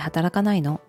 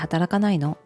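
First: It sounds heavy and reproachful. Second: It sounds heavy and reproachful.

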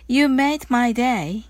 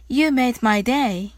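Both takes have the same delivery.

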